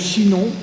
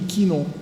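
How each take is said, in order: First: The name begins with a sh sound. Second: The name begins with a k sound. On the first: This is the modern French pronunciation. "nous, on prononce che" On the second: This is the Old French pronunciation. "il dit Quinon"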